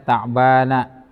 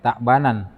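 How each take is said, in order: First: The word ends in a plain vowel 'a'. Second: The word ends with an added 'n' sound. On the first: The speaker calls it right. "Makanya dibaca ta'bana" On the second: The speaker calls it wrong. "bukan ta'banan"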